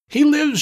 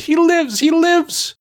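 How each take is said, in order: First: High screaming cry of triumph. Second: Much higher, louder screaming triumph. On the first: Mombi screams as her dummy comes alive, shrill and high. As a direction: shriek it out, much higher. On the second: Mombi screams with joy that Jack lives, high and loud. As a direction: scream it in wild delight. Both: Acted. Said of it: "she screamed".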